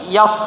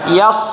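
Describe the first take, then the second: No difference in how they are said.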